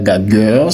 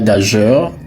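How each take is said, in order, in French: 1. Ça finit par un son 'gueur' dur. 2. Ça finit par un son 'jeur' doux. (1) "ce n'est pas gagueur" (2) "Ce n'est pas gageur"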